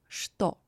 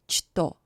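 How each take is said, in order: First: The word begins with a sh sound. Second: The word begins with a ch sound. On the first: The speaker calls it right. "but что" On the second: The speaker calls it wrong. "Not что"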